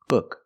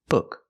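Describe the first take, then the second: First: The vowel is a short uh sound. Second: The vowel is a short uh sound.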